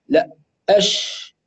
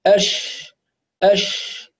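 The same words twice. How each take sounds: First: أش said slowly with rounded lips; rounded sheen. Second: أش said with spread, unrounded lips; unrounded sheen. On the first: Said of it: "يضم الشفتين فيقول أش". (شين بضم الشفتين) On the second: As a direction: keep the lips neutral on أش. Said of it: "بدون ضم للشفتين". (شين بدون ضم) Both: Shown as a demonstration.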